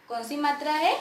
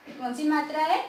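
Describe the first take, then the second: No difference in how they are said.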